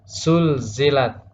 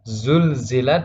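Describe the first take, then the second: First: The word begins with a hissing s sound. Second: The word begins with a buzzing z sound. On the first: The speaker calls it wrong. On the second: The speaker calls it right.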